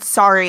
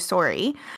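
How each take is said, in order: First: It is said in an American accent. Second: It is said in a Canadian accent, rising. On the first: "I said sorry like an American" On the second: "I've got the Canadian like end upward inflection"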